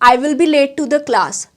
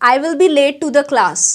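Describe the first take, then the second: Both takes have the same delivery.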